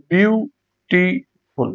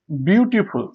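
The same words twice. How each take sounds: First: beautiful slowly in three separate beats; syllable by syllable. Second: Said in the usual way. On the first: Shown as a demonstration. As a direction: pause between biu, ti and ful in beautiful. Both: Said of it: "তিনবার উচ্চারণ করা হয়".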